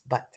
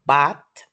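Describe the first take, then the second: First: The vowel is a short schwa sound. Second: The vowel is not a schwa. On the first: The speaker calls it right. "this is a sound schwa" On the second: The speaker calls it wrong. "It's not but"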